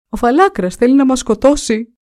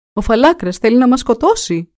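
First: Higher and louder, still panicking; frantic shout. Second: A frightened prince raising the alarm; alarmed shout. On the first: Prince answers his father, shouting in panic. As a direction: repeat the alarm even more frantically. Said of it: "και φωνάζεις έτσι". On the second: Prince wakes, sees drawn sword, shouts alarm. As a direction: cry it out higher and louder in alarm. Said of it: "φώναξε". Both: A narrator's reading.

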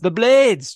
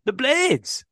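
First: Said in the usual way. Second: "The Blades" with a higher, put-on Yorkshire accent. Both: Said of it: "that's your Yorkshire accent".

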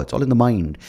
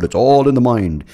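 First: Said in the usual way. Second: Smug mock advice. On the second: Mocking people who dismiss change.

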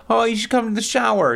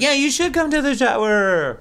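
First: High sweet Kristen voice. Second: High, overly sweet invitation; sugary, hammed-up politeness; mock nice invite. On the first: Retold or imitated. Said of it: "Kristen's like". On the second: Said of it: "[name] tries to be nice".

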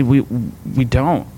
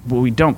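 First: "We, we don't" drawn out slowly and settled. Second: Said in the usual way. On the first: Shown as a demonstration. Pastor answering believers who demand answers, slow and settled. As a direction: let "We, we don't" sink in slowly. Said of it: "I just say".

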